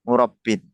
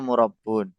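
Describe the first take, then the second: First: The word ends with an -in sound. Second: The word ends with an -un sound. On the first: The speaker calls it right. "Harusnya itu murabbi, murabbin" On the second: The speaker calls it wrong. "Terus yang kedua murabbun"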